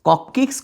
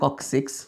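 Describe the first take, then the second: First: The second syllable is said with a k sound. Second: The second syllable is said with an s sound. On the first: The speaker calls it wrong. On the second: The speaker calls it right.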